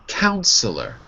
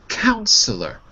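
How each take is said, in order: The two takes are said the same way.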